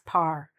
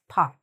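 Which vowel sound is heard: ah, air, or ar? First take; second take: ar; ah. First: The vowel sounds like "ar" in car. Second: The vowel sounds like "ah" with no r. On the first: "The mistake is sometimes this is said as par" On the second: "It's sometimes said as pa"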